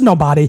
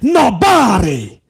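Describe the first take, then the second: First: The word is said plainly, without extra emphasis. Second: The word is amplified in an exaggerated Italian style. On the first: "It ain't just nobody" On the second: "That's how we say it in Italian. You amplify it"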